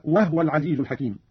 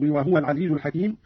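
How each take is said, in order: First: "وهو" said "wahwa", no vowel after h; silent-vowel ha. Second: Said in the usual way. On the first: Shown as a demonstration. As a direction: close the h of "وهو" straight onto the w. (إسكان الهاء في "وهو") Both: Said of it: "قرأ قالون بإسكان الهاء".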